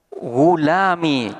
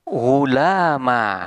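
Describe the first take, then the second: First: The word ends in a short i sound. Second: The word ends in a long a sound. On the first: "ya mutakallimnya ini dibuang dan menetapkan harkat kasroh" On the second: "diganti dengan alif dan huruf sebelumnya diberi harkat fathah"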